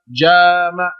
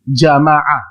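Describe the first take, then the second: First: The first vowel is said long. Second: The first vowel is said short. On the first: He had intercourse. "Kalau ja-nya dipanjangkan, berubah artinya" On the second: He gathered. "Ja-nya pendek"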